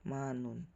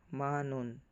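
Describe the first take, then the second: Both takes have the same delivery.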